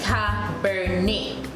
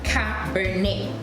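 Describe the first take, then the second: First: The final T sound is left silent. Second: The final T sound is left silent.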